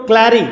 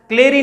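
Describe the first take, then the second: First: क्लैरी with open æ, as in cat; open æ vowel. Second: क्लेरी with closed e, klay-ri; wrong long e. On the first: Teacher correcting the vowel for students, open æ in क्लैरी. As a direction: say क्लैरी as klæ-ri, not klay-ri. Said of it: "ए बोल रहा हूं". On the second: Teacher showing what he isn't saying, closed e in क्लेरी. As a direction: say क्लेरी with the vowel of day. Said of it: "क्लेरी नहीं बोल रहा हूं मैं". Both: Shown as a demonstration.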